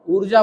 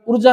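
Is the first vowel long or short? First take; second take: long; short. First: The first vowel is held long. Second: The first vowel is held short. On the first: "इस ऊ के उच्चारण में ज्यादा समय लग रहा है" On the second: "ऊर्जा नहीं बोल रहा हूं मैं"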